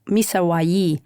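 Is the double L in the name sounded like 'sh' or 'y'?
y. The double L sounds like 'y'. This is how people in Ecuador say it. "if you say it in Ecuador, they say"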